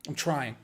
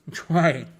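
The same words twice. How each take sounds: First: Said in the usual way. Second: TRYING pushed out louder and firmer; emphatic repeat. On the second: Real, not acted. Streamer trying not to talk about it, TRYING stressed emphatically. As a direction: insist on "trying" with a loud, firm stress.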